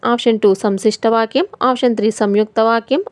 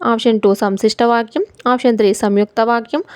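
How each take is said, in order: The two takes are said the same way.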